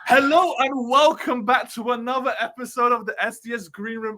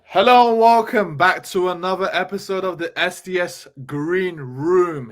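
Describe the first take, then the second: First: It is said with high energy. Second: It is said with low energy.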